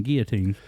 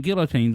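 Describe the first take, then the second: First: Put-on "guillotines" with no L, GEE-uh-teens; silent L. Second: Put-on "guillotines" with the L sounded, GILL-uh-teens; L pronounced. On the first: Host contrasting two co-hosts' ways, "guillotines" with silent L. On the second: Host contrasting two co-hosts' ways, "guillotines" with a sounded L. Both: Shown as a demonstration. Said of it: "you got one of 'em saying".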